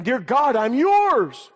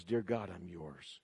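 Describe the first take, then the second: First: High, loud cry of surrender; fervent cry. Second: Low, slow, very soft surrender; hushed prayer. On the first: Believer on the altar offering himself to God, fervent cry. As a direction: call it out to God, pitched high. Preacher acts out surrender prayer. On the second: Believer giving his life to God, hushed prayer. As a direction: pray it quietly, low and unhurried. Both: Acted.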